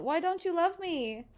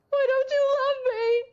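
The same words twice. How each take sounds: First: High, whiny pleading question; mock sad. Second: Mock wail. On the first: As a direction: beg for love like a child. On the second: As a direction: wail it out dramatically. Escalating mock hurt.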